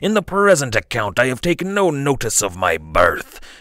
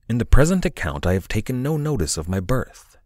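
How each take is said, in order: First: It is said in a gruff pirate accent. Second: It is read in a plain, neutral voice.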